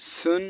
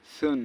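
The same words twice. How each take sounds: First: সুন with a strong hissed S; sharp sin S. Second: সুন said as a soft "thun"; soft tha. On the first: Teacher drilling sin against tha, sharp S. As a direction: hiss clearly into সুন. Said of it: "স এরকম". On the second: Teacher drilling tha against sin, soft TH. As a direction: begin সুন with a gentle TH. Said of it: "সা নরম". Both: Shown as a demonstration.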